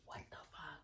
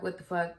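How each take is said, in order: First: Barely audible whisper, no voice; whispered disbelief. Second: Said in the usual way. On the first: Retold or imitated. Daughter to boyfriend as he walks in, whispered disbelief. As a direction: mouth it to him in a tiny whisper. Repeats it under breath to boyfriend.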